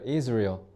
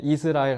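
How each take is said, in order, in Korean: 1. 미국 영어 소리로 발음했어요. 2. 한국식 음절로 발음했어요. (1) "Israel이라고 해야 알아들어요" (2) "이스라엘 하면 못 알아들어요"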